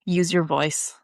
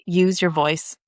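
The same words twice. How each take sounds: First: Said in the usual way. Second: "use your voice" said slowly and deliberately; slow, weighted "use your voice"; emphatic repeat. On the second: Real, not acted. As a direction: stretch out "use your voice" to drive it home. Repeats advice after saying "really.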